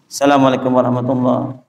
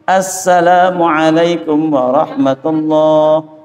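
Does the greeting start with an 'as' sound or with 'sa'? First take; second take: sa; as. First: The greeting drops 'as' and begins with 'sa'. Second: The greeting begins with the full 'as' sound. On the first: The speaker calls it wrong. "imamnya nggak pakai as. Langsung" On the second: The speaker calls it right. "Harus pakai apa? ... Pakai as"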